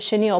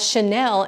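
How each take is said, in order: First: The word is said to sound like 'chenille'. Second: The word is said to sound like 'Chanel'. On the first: This is the standard way of saying it. The speaker calls it right. "instead of chenille" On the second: This is the local way of saying it. The speaker calls it wrong. "she pronounced it as Chanel"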